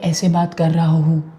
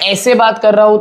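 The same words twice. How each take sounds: First: It is spoken softly and quietly. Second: It is spoken loudly and forcefully. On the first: The particles vibrate only a little. "Particles हैं वो कम आगे की तरफ vibrate कर रहे होंगे" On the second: The particles vibrate a lot. "Particles ज्यादा vibrate कर रहे होंगे"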